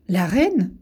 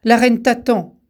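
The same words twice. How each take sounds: First: Mildly taken aback, repeating the word; astonished. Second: Said in the usual way. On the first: A narrator's reading. Tao echoes the messenger, mildly astonished. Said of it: "s'étonna Tao". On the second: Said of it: "lui dit l'inconnu".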